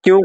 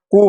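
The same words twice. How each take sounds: First: "क्यू" with a y glide, as kyoo; English letter Q. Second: "कू" as koo, without a y glide; German letter Q. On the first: Teacher names the form to avoid, English kyoo. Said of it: "क्यू नहीं German में कू". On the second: Teacher corrects kyoo for students, German koo. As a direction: say "कू" with a plain long oo. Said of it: "German में कू बोला जाता है". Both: Shown as a demonstration.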